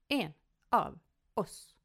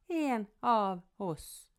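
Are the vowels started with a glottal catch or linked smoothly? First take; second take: glottal; linked. First: Each vowel starts with a sharp glottal catch. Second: The words run together without glottal catches.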